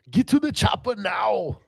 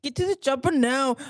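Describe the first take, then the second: First: Higher, strained action-star cry; Arnold Schwarzenegger. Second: Lightly voiced action-star line; half-hearted echo of action hero; Arnold Schwarzenegger. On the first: Acted. Host asked about an action star impersonation, strained action-hero impression. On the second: Co-host echoing the host's line, mild action-star impression. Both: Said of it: "Can you do an Arnold Schwarzenegger impersonation?".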